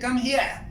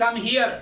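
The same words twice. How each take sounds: First: Lightly imitated London accent, "here" ending in an open "ah"; a hint of London English on "Come here"; British accent. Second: Lightly imitated American accent, "here" with an r ending; a hint of American English on "Come here". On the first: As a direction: drop the r in "here", British-style. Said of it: "London والے کہتے ہیں". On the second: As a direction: sound the r in "here", American-style. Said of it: "اور American والے کہتے ہیں". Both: Shown as a demonstration.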